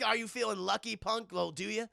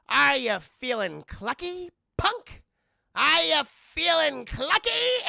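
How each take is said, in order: First: Said in the usual way. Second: High, loud, slow mock tough-guy taunt; chicken Dirty Harry. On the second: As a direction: ham up a clucking Clint Eastwood threat. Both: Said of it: "like Clint Eastwood's character".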